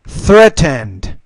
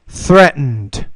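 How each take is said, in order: First: The T is fully pronounced. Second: The T is a glottal stop. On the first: "I'll pronounce the T the first time" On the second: "the second time I'll do it with the glottal stop"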